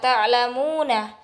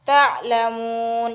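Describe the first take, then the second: First: The word ends with a vowel after the n. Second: The word ends on the consonant n. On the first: The reading continues without stopping. "Kalau misalnya ini ini ini tidak ada wakaf, berarti ini dibaca ta'lamuna" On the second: The reading stops at this word. "hukumatnya berubah ketika ada tanda wakaf di sebelah nun. Misalnya ta'lamun"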